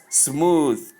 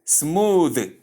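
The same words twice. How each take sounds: First: "smooth" ending in a separated voiceless th; wrong pronunciation. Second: "Smooth" drawn out with a voiced th; correct pronunciation. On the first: Teacher repeating the form to avoid, "smooth" with voiceless th. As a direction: say "smooth" as smoo-th, ending like "tooth". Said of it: "not smooth". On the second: Teacher repeating the right form, "Smooth" with voiced th. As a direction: say "Smooth" with a buzzing final th. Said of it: "It is smooth". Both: Shown as a demonstration.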